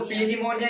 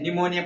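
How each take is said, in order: First: The word begins with a p sound. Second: The word begins with an n sound. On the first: The speaker calls it wrong. "इसको पी निमोनिया नहीं पढ़ते हैं" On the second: The speaker calls it right. "निमोनिया पढ़ते"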